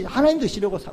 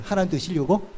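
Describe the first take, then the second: First: 하나님 드시려고 with a falling tune, stated and cut off; flat denial. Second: 하나님 드시려고 with a rising, doubting tune; mock question. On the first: Preacher denying the idea to the congregation, falling tune. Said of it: "우리한테 준 거 아니거든요". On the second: Preacher asking the congregation, rising tune. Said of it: "아니잖아요". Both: Shown as a demonstration.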